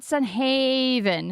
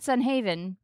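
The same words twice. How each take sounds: First: "Sun Haven" drawn out slow and raised in pitch; exaggerated Sun Haven. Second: Said in the usual way. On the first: Brother repeating back the odd phrase, exaggerated Sun Haven. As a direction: mimic "Sun Haven" with a big stretched Haven. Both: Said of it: "Why did you say it like that?".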